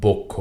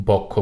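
First: বক্ষ said "bokkho", rounded o; correct o-like vowel. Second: বক্ষ said "bawkkho", open aw; mistaken open vowel. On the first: Teacher correcting the error, "bokkho". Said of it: "সঠিক উচ্চারণটি হল". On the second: Teacher naming the error, "bawkkho". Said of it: "ভুল উচ্চারণ". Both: Shown as a demonstration.

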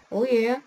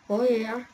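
No difference in how they are said.

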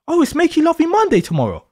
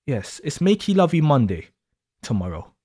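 First: Playful teasing. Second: Soft suggestive repeat. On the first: Teasing partner mocking bedtime. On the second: Teasing partner, lower softer repeat. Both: Acted.

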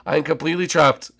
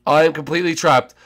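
Both takes have the same delivery.

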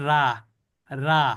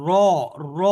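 First: রা said light and thin with a clear open aa vowel. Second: র said heavy and full, the tongue's middle raised, a dark open sound; thick ra. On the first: Teacher showing students the wrong, thin রা. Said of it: "রা বলে পাতলা হয়ে গেল". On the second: Teacher showing students the thick র. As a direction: give র its thick, heavy form. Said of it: "এইটা হলো মোটা উচ্চারণ". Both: Shown as a demonstration.

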